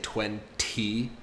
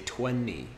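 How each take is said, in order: First: The T after the N is clearly pronounced. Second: The T after the N is dropped. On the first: "instead of saying twenty" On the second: "I say twenty with an N"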